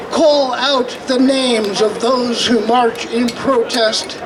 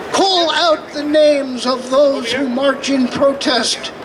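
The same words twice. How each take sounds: The two takes are said the same way.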